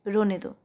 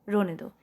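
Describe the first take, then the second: Both takes have the same delivery.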